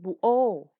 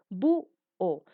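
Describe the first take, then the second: First: The stress falls on the second syllable. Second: The stress falls on the first syllable. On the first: The speaker calls it wrong. "Tú no dices" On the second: The speaker calls it right. "La mayor intensidad de voz está en la U"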